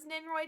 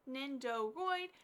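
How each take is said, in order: First: The word is said in a shortened form. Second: The word is said with all its syllables. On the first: "a shorter way of saying it" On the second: "some people say"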